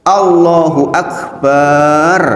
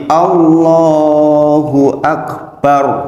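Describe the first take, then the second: First: The final syllable 'bar' is drawn out long. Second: The final syllable is short with a heavy r. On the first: It means drum. The speaker calls it wrong. "Barnya panjang" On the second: It means God is the greatest. The speaker calls it right. "roknya tebal"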